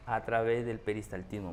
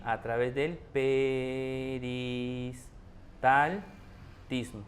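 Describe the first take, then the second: First: Said in the usual way. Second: Very slow, every syllable stretched; teacher dragging out "peristaltismo" for emphasis; drawn-out emphasis. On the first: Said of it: "repeats the phrase normally". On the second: Shown as a demonstration. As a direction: spell out "A través del peristaltismo" slowly for students to copy. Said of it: "teacher stretches the key phrase".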